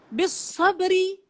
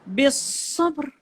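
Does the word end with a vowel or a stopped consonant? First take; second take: vowel; stopped consonant. First: The word ends with a short i vowel. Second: The word ends on a stopped r sound. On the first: The reading continues without stopping. "tak ada masalah ri. Dia hidup" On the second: The reader stops at this word. "kita matikan dia, kita wakafkan dia"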